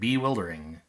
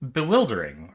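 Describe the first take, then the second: First: The first syllable is stressed. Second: The first syllable is a weak, unstressed schwa. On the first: The speaker calls it wrong. "They like emphasize the first syllable" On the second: The speaker calls it right. "It's a b, like just a, a schwa unemphasized"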